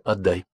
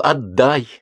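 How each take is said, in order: First: Said in the usual way. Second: Higher-pitched, sudden demand; a contained cry of protest. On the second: A narrator's reading. Lyolya blocks his way to the door, crying out. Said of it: "она закричала".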